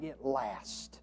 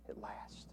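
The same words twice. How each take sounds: First: Said softly, it lasts; soft statement. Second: A hushed whisper of it lasts. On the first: Preacher closing the point, softly. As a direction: let it drop quietly. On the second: Preacher whispering the echo to the congregation. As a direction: breathe it out, no voice. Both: Shown as a demonstration.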